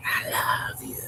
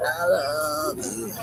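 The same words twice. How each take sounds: First: Breathy whisper, close and intimate; whispered I love you. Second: Slow, drawn-out and tender; slow tender I love you. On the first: Speaker whispering to the one they love, hushed whisper. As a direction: murmur it into a lover's ear. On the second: Speaker telling the one they love, slow and tender. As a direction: linger on each word lovingly. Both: Pretend.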